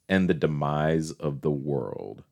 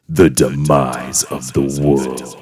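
First: It is said in a plain, neutral tone. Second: It is said in a dark, ominous tone.

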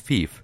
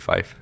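First: The vowel sounds like the 'ee' in 'see'. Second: The vowel sounds like the 'i' in 'five'. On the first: The speaker calls it wrong. "It's fief" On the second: The speaker calls it right. "Yeah, it's probably fife"

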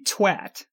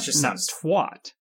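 First: The word is pronounced the British way. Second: The word is pronounced the American way. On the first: The speaker calls it right. "apparently it's supposed to be twat" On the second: The speaker calls it wrong. "not twat"

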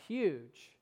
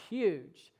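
The two takes are said the same way.

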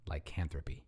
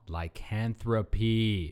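First: It is said at normal loudness and speed. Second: It is said louder and slowly drawn out.

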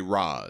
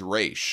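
First: The name ends in a 'z' sound. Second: The name ends in a 'sh' sound. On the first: "I like this pronunciation better. They say Raz" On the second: "So she says Raish"

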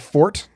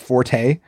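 First: The word ends without a final vowel sound. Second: The word ends with a sounded final vowel. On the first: It refers to a personal strength. The speaker calls it right. "the E is silent" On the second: It is the musical term. The speaker calls it wrong. "you don't say the E. It's not forte"

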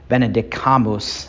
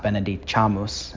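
First: It is said in classical Latin pronunciation. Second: It is said in non-classical Latin pronunciation. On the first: The speaker calls it right. "I'm switching totally to classical" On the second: The speaker calls it wrong. "not Benedicamus"

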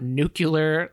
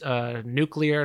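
First: The word is said as 'new-cue-ler'. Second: The word is said as 'new-clee-er'. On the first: The speaker calls it wrong. "not nuclear. Little George Bushism there" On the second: The speaker calls it right. "it's nuclear"

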